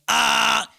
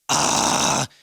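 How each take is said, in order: First: A distorted scream carrying a clear pitch. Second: A rough, distorted scream without clear pitch. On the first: "If you're doing tonal false chord and going" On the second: "If you're doing false chord"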